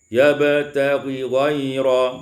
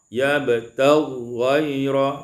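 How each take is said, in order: First: A vowel keeps the two gh sounds separate. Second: The two gh sounds merge into one long sound. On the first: "dibaca izhar seperti Hafaz" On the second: "idghamkan huruf ghain pada ghain"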